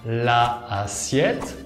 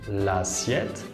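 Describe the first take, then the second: First: The article vowel is kept before the noun. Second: The article vowel is dropped and joined on. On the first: The speaker calls it wrong. "No decimos" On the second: The speaker calls it right. "pero decimos"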